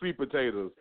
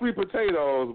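First: Potatoes is said with an altered vernacular ending. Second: Potatoes is said with its standard ending. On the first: "we say sweet potatoes" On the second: "Not sweet potatoes"

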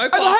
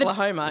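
First: It is said with excited, exclamatory emphasis. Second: It is said flatly, without emphasis.

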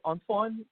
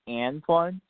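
First: It is said the French way. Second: It is said with a harsher American A.

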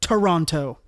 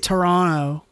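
First: Both T sounds are clearly pronounced. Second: The second T sound is left out. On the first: This is how Americans say it. "I pronounce it the American way" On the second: This is how Canadians say it. "if you're from Canada, they don't say the second T"

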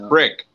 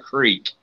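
First: The vowel is short, rhyming with 'stick'. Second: The vowel is long, rhyming with 'seek'. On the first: This is how locals here say it. The speaker calls it right. "It's a crick" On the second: This is how people elsewhere say it. The speaker calls it wrong. "not a creek"

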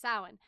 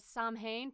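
First: Some letters of the word are not sounded. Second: Every letter of the word is sounded out. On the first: The speaker calls it right. "but it's actually pronounced Samhain" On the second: The speaker calls it wrong. "it looks like it's pronounced as Samhain because that's how it's spelled"

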